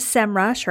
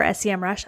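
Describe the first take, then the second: First: "sem rush" with "sem" said as a word; one-word pronunciation. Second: "S E M rush" with each of S, E, M named; spelled-out pronunciation. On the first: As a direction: blend the letters into one syllable, "sem rush". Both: Shown as a demonstration. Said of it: "I'm gonna say S E M rush".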